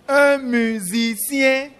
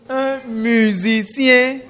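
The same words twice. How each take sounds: The two takes are said the same way.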